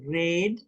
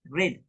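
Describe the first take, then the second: First: The vowel is full and longer. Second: The vowel is clipped and very short. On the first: The speaker calls it wrong. "It's not red" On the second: The speaker calls it right. "It's red"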